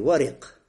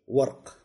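First: An i vowel is heard after the r. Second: No vowel is heard after the r. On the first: "Варик с кесрой" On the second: "А можно и с сукуном"

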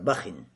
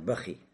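First: The word ends with an added in sound. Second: The word ends with an added i sound. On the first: "тануин кесра" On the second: "с кесрой, но без тануина"

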